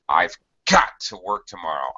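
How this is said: The word got is strongly stressed.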